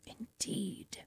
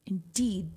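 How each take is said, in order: First: Soft whispered agreement; hushed knowing "Indeed". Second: Said in the usual way. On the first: Real, not acted. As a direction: breathe it out as a whisper. Repeats indeed.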